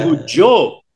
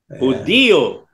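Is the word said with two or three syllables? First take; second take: two; three. First: The word is said with two syllables. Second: The word is said with three syllables. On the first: The speaker calls it wrong. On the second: The speaker calls it right.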